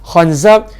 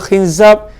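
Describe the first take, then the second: First: The vowels are a, then a. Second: The vowels are i, then a. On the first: "kha dengan zai baris atas" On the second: "nama dia khinzab"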